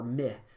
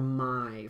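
First: The vowel sounds like eh. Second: The vowel sounds like eye. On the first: "they'd say meh or my" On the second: "or my for like might"

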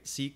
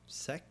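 First: The word has a long vowel, like 'seek'. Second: The word has a short vowel, like 'sec'. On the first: "the reason I pronounce it seek is because it's sequence" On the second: "rather pronounced like sack than seek"

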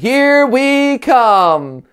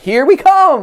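First: It is said flatly, as if read. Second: It is said with energy and enthusiasm.

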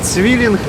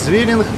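First: The word begins with a ts sound. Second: The word begins with a z sound. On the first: "так як мене поправляли цвілінг" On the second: "я по своєму суржиковому діалекту"

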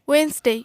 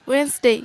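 Both takes have the same delivery.

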